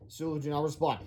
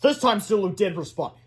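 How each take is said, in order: First: Said in the usual way. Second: "did" stressed to mark the change. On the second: A narrator's reading. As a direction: lean on "did" as the twist. Contrast with did not respond.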